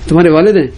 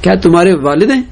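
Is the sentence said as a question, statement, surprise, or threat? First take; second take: threat; question. First: It is said with a threatening tone. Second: It is said as a plain asking question. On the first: The speaker warns they will tell the father. "دھمکی بھی ہو سکتی ہے کہ ابھی بتاؤں گا تمہارے ابا کو" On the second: The speaker is asking whether this is the father. "سوال بھی ہو سکتا ہے"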